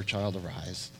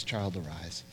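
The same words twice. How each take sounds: First: Low, soft call to wake; gentle command. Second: Lower, quieter repeat; softer gentle command. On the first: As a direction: call her up tenderly. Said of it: "He speaks to her". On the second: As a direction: hush it tenderly. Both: Retold or imitated.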